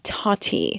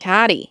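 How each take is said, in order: First: The name is said without a Canadian accent. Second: The name is said with a Canadian accent.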